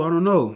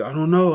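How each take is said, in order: First: Put-on baby mama repeats she doesn't know; panicked. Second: Put-on baby mama can't say where his mom is; panicked. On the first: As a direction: keep the flustered panic going. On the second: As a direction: imitate her flustered panic.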